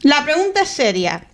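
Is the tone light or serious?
light. It is said in a light, casual tone.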